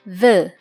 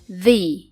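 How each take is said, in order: First: The vowel is a short, weak 'uh' sound. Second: The vowel is a clear 'ee' sound. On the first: It is used before a word starting with a consonant sound. "Yang pertama diucapkan the" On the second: It is used before a word starting with a vowel sound. "yang kedua dapat diucapkan the"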